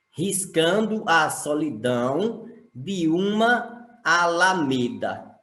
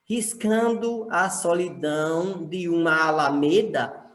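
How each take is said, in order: First: Slow reading, "uma" and "alameda" kept apart; words kept separate. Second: "uma alameda" run together on a shared vowel; poetic scansion. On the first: Teacher showing grammatical syllables, "uma alameda" slow and unjoined. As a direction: say "uma alameda" slowly with every vowel separate. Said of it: "Eu separei gramaticalmente". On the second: Teacher demonstrating poetic counting, "uma alameda" linked. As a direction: join "uma alameda" in one flowing line. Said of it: "eu só conto até a última sílaba". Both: Shown as a demonstration.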